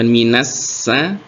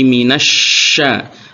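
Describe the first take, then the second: First: The consonant is a plain s sound. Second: The consonant is a breathy sh sound. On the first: The speaker calls it wrong. "jangan sampai tertukar dengan sin, bukan minassa" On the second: The speaker calls it right. "tapi minasya. Udaranya berembus banyak"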